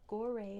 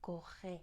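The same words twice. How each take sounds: First: The name is pronounced with English sounds. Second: The name is pronounced with French sounds. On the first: "is how we'd say it in English" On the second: "In French, what they speak in Senegal is"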